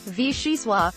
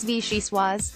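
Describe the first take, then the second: First: The word ends on an open vowel. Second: The word ends with a z sound. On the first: The speaker calls it wrong. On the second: The speaker calls it right. "It's vee-she-swaazz"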